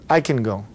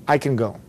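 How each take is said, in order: The two takes are said the same way.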